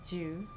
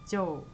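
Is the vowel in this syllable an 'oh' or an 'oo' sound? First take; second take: oo; oh. First: The vowel is a rounded oo sound. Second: The vowel is a rounded oh sound. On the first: The speaker calls it wrong. "jo is like not ju" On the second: The speaker calls it right. "Sounds like a American's name, Joe"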